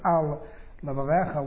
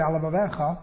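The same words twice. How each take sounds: First: The words are kept apart as separate words. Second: The words run together like one long word. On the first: "as opposed to" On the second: "it sounds like it's one long word"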